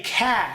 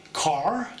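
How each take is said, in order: First: "car" drawn out without the R, Australian; Australian pronunciation. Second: "car" with the R sounded, American; American pronunciation. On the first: Contrasting accents, "car" the Australian way, no R. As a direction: drop the R in "car" and hold the vowel. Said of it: "if you're from Australia, you say car". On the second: Contrasting accents, "car" the American way with R. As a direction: say "car" with a clear final R. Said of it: "An American would say car". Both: Shown as a demonstration.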